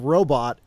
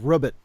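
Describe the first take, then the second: First: The word ends with a full 'bot' sound. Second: The word ends with a short 'bit' sound.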